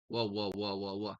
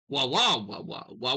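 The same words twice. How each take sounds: First: The repeated sounds come at a steady, even rhythm. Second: The repeated sounds come at an uneven, irregular rhythm. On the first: The engine is healthy. The speaker calls it right. "an engine sounds steady as you're cranking it" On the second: The engine has a faulty cylinder. The speaker calls it wrong. "Not Rich's"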